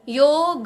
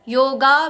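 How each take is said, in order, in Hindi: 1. शब्द का अंत छोटे a स्वर से होता है। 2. शब्द का अंत लंबे a स्वर से होता है। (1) "पूरा ग" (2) "योगा भी नहीं कहना है"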